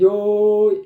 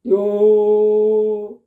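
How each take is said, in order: First: The syllable ends with a small bend in pitch. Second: The syllable ends level without a bend. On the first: The speaker calls it wrong. "이렇게 됐다고. 뭔가 거슬려" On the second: The speaker calls it right. "이렇게 해야 되는데"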